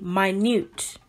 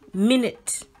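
First: The stress is on the second syllable. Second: The stress is on the first syllable. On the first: It means extremely small. "which is extremely small" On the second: It names a length of time. "which would be 60 seconds"

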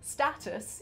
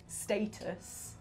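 First: The word is said with an American pronunciation. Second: The word is said with a non-American pronunciation. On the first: The speaker calls it wrong. "Lara Croft kept saying things in a slightly American way. She says status" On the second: The speaker calls it right. "instead of status"

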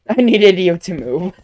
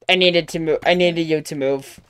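First: The tone is soft and gentle. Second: The tone is blunt and rude. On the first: The speaker calls it right. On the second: The speaker calls it wrong.

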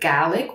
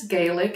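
First: Gaelic is pronounced the Scottish way. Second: Gaelic is pronounced the Irish way. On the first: It names the language spoken in Scotland. "and then you have Gaelic, which is spoken in Scotland" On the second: It names the language spoken in Ireland. "One is spoken in Ireland, which is Gaelic"

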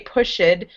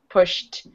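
First: The ending is said as an extra syllable. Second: The ending is a bare t sound, no syllable. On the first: The speaker calls it wrong. "you don't add a, you don't say pushed" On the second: The speaker calls it right. "It sounds like walked, pushed"

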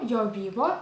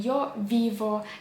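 First: The consonants sound between b and v. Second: The consonants sound like a clear v. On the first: The speaker calls it right. "там такий нехарактерний звук" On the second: The speaker calls it wrong. "або не «йо віво»"

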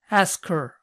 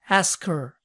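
The two takes are said the same way.

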